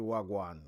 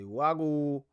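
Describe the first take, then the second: First: The greeting ends with a 'wan' sound. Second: The greeting ends with an 'o' sound. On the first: The speaker calls it wrong. "We don't say wagwan" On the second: The speaker calls it right. "We say wago"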